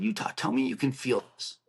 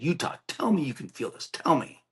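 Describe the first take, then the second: First: Restrained retold plea to a friend. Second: Higher-pitched, more insistent begging; retold desperate plea. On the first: Squeezing Utah's arm a little harder, restrained retold plea. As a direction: plead with mild urgency, holding back. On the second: Squeezing Utah's arm with two hands, retold desperate plea. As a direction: press for an answer, pitch lifted.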